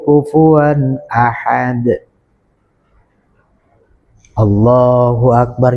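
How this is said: There is a pause before 'Allahu akbar'. The speaker calls it right. "Jadi ada jeda dulu"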